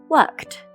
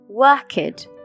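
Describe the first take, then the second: First: The ending is a plain T sound. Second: The ending is an extra 'ed' syllable. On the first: The speaker calls it right. "the ed is actually pronounced more like a T" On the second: The speaker calls it wrong. "A lot of my students make the mistake of pronouncing it like this"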